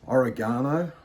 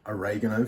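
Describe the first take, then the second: First: It is said in an Australian accent. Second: It is said in an American accent.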